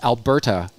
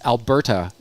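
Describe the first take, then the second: First: The middle consonant is a crisp T sound. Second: The same.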